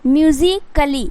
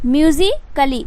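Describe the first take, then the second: The two takes are said the same way.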